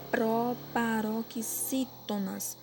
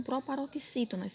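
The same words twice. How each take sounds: First: "proparoxítonas" very slow, syllable by syllable; slow dictation. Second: Said in the usual way. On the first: Shown as a demonstration. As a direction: break "proparoxítonas" into drawn-out syllables for copying. Teacher dictating a question slowly.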